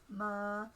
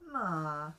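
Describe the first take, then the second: First: The pitch stays level in the middle. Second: The pitch stays low on the syllable. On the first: "You can have a mid-tone" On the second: "You can have a low tone"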